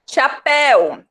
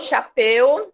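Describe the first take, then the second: First: The last syllable has an open vowel. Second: The last syllable has a closed vowel. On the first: "o som é de el" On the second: "Se fosse de eu"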